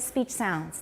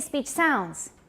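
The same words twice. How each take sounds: First: The stress falls on the word speech. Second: The stress falls on the word sounds. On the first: The phrase is a compound naming sounds of speech. The speaker calls it right. "it is a compound. We say speech sounds" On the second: The phrase is heard as speech making sounds. The speaker calls it wrong. "So we don't say speech sounds"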